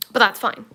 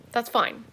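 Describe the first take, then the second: First: Louder insistence. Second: Said in the usual way. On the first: Shown as a demonstration.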